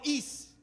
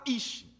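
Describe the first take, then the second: First: The word ends with a plain s sound. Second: The word ends with an sh sound. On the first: "Alguns falam is" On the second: "é um carioquês no hebraico, ... eu vou falar ish"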